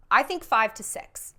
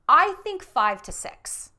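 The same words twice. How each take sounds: First: Said in the usual way. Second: "I think five to six" slow and louder, each number weighted; emphatic answer. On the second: Shown as a demonstration. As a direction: announce "I think five to six" slowly, like a verdict. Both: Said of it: "is there a magic number".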